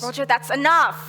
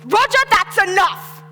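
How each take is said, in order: First: It is said gently, without real anger. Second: It is shouted loudly and angrily.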